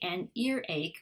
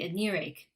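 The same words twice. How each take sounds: First: The words are said apart, not linked. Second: The sounds run on and blend together. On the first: The speaker calls it wrong. "We don't say an earache" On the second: The speaker calls it right. "we say an earache. ... some of those sounds go on to the next one and they blend together"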